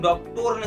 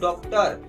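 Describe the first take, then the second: First: The last syllable has a full 'o' vowel. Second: The last syllable has a short 'a' vowel. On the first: The speaker calls it wrong. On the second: The speaker calls it right.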